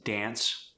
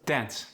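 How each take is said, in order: First: Said in the usual way. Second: South African "Dance" with a relaxed A; South African accent. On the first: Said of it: "For the long A sound". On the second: Shown as a demonstration. Teaching the South African long A, accented "Dance". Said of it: "more of a relaxed A sound".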